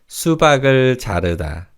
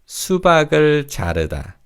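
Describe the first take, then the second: Both takes have the same delivery.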